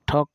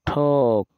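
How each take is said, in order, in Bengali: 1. স্বরটা ছোট আর কাটা কাটা। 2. স্বরটা লম্বা, টেনে বলা o-এর মতো। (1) "ঠক না" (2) "এটাও একটু মহাপ্রাণ হবে"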